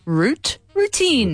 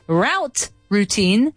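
First: "Route" with an oo vowel, matching the start of "routine"; British pronunciation. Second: "Route" rhyming with out, then "routine" with oo; mismatched North American pronunciation. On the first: Host proves her British version makes sense, British pronunciation. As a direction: say "Route" like "root", then "routine" higher. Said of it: "That makes sense". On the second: Host shows why the American version makes no sense, mismatched pronunciation. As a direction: say "Route" like "rout", clashing with "routine". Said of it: "That doesn't make sense".

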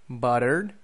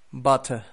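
First: "Buttered" said as American "butter", T tapped, final R sounded, rising; American demo of "Buttered" as butter, tune left open; American accent. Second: "butter" the British way, crisp T, silent final R, falling; British demo of "butter" with a closing fall; British accent. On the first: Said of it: "T's in the middle of words sound like R". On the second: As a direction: model British "butter", ending in an open uh. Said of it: "it sounds just like a T". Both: Shown as a demonstration.

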